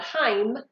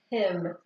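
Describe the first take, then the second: First: The vowel is long, like the letter name. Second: The vowel is short, as in a closed syllable. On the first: The speaker calls it wrong. "not Heim" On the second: The speaker calls it right. "because it's a closed syllable"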